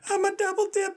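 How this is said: It is said in a strained high-pitched voice. "I don't know why you went so high"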